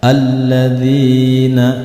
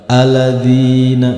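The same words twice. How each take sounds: First: The L is doubled with a slight jolt. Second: The L is single and said smoothly. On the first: The speaker calls it right. "jika ketemu dengan huruf lam yang bertasjid sedikit disentak" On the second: The speaker calls it wrong.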